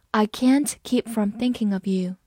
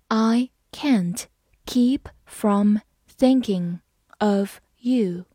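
First: Said in the usual way. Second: Slow phrase-by-phrase reading. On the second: Shown as a demonstration. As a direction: read it in slow chunks. (分段慢读) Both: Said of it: "好，慢慢来读。".

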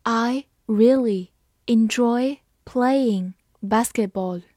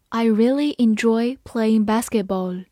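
First: Slow, drawn out; slow reading. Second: Said in the usual way. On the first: Shown as a demonstration. Teacher reading slowly for students to copy. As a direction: read it slowly and clearly. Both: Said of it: "好，慢慢来读。".

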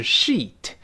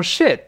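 First: "sheet" with long tense ee. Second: "shit" with short lax i; short-vowel mistake. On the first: Teacher shows bed-sheet word, "sheet" with long ee. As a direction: stretch the ee vowel in "sheet". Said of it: "我们这是sheet". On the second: Teacher warns of mistake, "shit" with short lax i. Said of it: "可不要读成shit". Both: Shown as a demonstration.

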